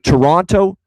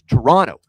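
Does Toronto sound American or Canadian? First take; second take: American; Canadian. First: It has an American accent, second T pronounced. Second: It has a Canadian accent, second T softened. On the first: The speaker calls it wrong. "I said Toronto like an American" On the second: The speaker calls it right. "that's better"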